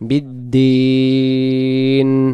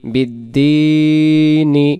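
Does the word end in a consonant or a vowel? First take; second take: consonant; vowel. First: The word ends on n with no vowel. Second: The word ends with a short i vowel. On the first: The reciter stops for breath here. "তখন এই জেরটাকে আর পড়া লাগবে না তখন উচ্চারণ হবে বিদ্দিন" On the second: The reciter carries on without stopping. "নুন জের নি বিদ্দিনি"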